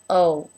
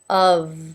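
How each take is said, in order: First: The final consonant is dropped and trails off. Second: The word ends with a clearly voiced v. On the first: The speaker calls it wrong. "the sound just kind of tapered off at the end of the word" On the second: The speaker calls it right. "Very important to keep making sound here"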